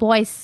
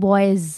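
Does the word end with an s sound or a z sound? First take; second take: s sound; z sound. First: The word ends with an s sound. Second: The word ends with a z sound. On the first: The speaker calls it wrong. "এটা কিন্তু বয়েস বলে না" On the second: The speaker calls it right. "এটা কিন্তু জেড বা জি sound করে"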